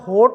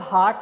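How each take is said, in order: First: The vowel is a long 'oh' sound. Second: The vowel is a long open 'aa' sound. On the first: "अगर आप इसको होट बोलते हैं तो ये गलत है" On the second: "ना ही तो हार्ट है"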